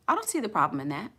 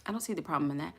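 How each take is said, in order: First: Said in the usual way. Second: Softer echo. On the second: Real, not acted. Repeats answer softer.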